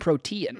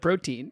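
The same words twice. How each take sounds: First: It is not said like the nutrient word. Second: It is said like the nutrient word. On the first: "you saying protein" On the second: "instead of protein"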